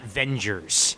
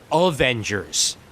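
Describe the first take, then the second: First: The word starts without the 'a' sound. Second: The word starts with a clear 'a' sound. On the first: The speaker calls it wrong. "not Vengers" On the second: The speaker calls it right. "Avengers, not Vengers"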